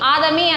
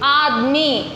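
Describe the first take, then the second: First: A full vowel is sounded after the d. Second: No vowel is sounded after the d. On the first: The speaker calls it wrong. "ఆదమీ అనకూడదు" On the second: The speaker calls it right. "మధ్యలోది సగమే చదవాలి"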